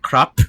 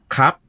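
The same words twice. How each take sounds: First: The final p is released with a puff. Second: The final p is cut off by a glottal stop. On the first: The speaker calls it wrong. "it's not crap. You'll never puff it out" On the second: The speaker calls it right. "You're going to have this glottal stop as soon as your lips hit"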